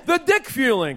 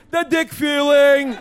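First: Said in the usual way. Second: Slow, stretched catchphrase for everyone to join; drawn-out call to the crowd. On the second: Acted. [name] leads the audience in his catchphrase, slow and drawn out. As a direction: drag out The dick feeling so the audience chants along. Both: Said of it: "Come on, say it with me".

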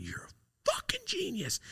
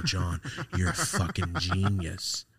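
First: Breathless, high whisper of amazement; awed whisper. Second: Said in the usual way. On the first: Retold or imitated. Teen whispering to his uncle in awe, whispered. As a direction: whisper it like he just saved your life.

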